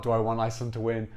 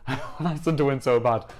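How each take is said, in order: First: Said in the usual way. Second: Laughing and a bit louder. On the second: Real, not acted. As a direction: laugh through it, eager. Laughs while insisting.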